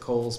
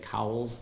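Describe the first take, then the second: First: The vowel sounds like the one in 'coal'. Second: The vowel sounds like the one in 'cow'. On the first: This is how the man himself said his name. "I pronounce it Coles because that's how he pronounced it" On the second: This follows the spelling with the W. "if you've always seen that W and had to say Cowles"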